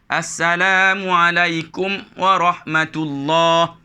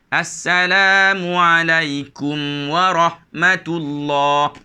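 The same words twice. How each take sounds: First: The reading stops abruptly at the mim sound. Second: The reading flows smoothly through the mim sound. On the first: The speaker calls it wrong. "Jadi ini kesilapan" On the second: The speaker calls it right. "Itu cara bacaan yang betul"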